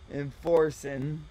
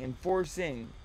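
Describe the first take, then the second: First: The ending is clipped to an 'in' sound. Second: The ending is a full 'ing' sound. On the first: The speaker calls it wrong. "she couldn't say enforcing" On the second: The speaker calls it right. "Just say ing"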